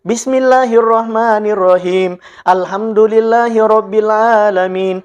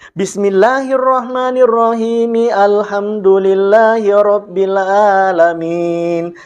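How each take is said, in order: First: The two verses are separated by a pause. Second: The two verses run together without a pause. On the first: "dibaca ayat per ayat" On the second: "bacaan basmalahnya disambung dengan alhamdulillah"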